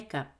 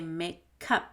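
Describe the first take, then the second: First: The k links smoothly into the next vowel. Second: The two parts are said carefully and separately. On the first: The speaker calls it right. "Do you hear the gup?" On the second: The speaker calls it wrong. "That's too careful"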